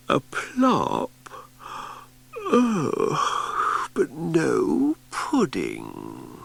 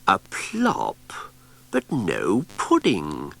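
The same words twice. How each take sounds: First: Sleepy puzzled wail. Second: Puzzled Cassandra. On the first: Repeated in her sleep. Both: Acted.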